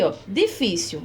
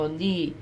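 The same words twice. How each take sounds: First: Said in the usual way. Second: Difícil split softly as di-fí-cil; difícil said syllable by syllable, stress on fí; syllabified. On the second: Shown as a demonstration. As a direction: break difícil into syllables, quietly. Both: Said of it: "Vamos separar aqui difícil".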